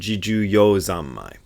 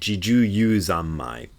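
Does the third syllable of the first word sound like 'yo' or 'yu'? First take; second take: yo; yu. First: The third syllable has an 'oh' vowel. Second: The third syllable has an 'oo' vowel. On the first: This is the reading the characters indicate. The speaker calls it right. "it should be pronounced" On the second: This is the common Soto Zen reading. The speaker calls it wrong. "Almost everybody else in the Zen sect pronounces it"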